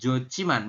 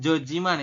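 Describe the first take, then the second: First: The middle consonant is an aspirated ch. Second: The middle consonant is a plain j. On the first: The speaker calls it right. "kita bacanya menjadi Jociman" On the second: The speaker calls it wrong. "Bukan Jojiman, itu juga bukan"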